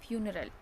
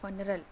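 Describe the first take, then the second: First: The first syllable sounds like 'few'. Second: The first syllable sounds like 'fun'. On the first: The speaker calls it right. "उसको क्या पढ़ेंगे हम असली में" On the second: The speaker calls it wrong. "ऐसे हम कई बार पढ़ लेते हैं झटके में"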